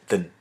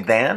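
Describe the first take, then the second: First: The vowel in 'than' is short and weak. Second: The vowel in 'than' is full and clear. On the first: The speaker calls it right. "I say than" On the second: The speaker calls it wrong. "I don't say than"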